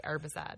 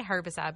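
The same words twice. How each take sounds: First: HERBICIDE said as ER-bicide; silent H. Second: HERBICIDE with the H pronounced; sounded H. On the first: Co-host showing what friends hear, HERBICIDE without its H. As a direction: leave the H off HERBICIDE. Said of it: "they think I say". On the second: Co-host defending own speech, HERBICIDE with a sounded H. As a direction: breathe the H at the start of HERBICIDE. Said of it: "I say herbicide". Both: Shown as a demonstration.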